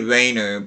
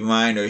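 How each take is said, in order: First: The name has an English-style pronunciation. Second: The name has a German-style pronunciation. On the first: The speaker calls it wrong. "I say Reiner" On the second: The speaker calls it right. "it's supposed to be Reiner. He's Austrian"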